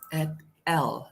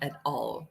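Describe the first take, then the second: First: The ending is a short syllable with a bare l. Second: The ending sounds like the full word all. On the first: The speaker calls it right. "the correct pronunciation for this is at l" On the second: The speaker calls it wrong. "not at all"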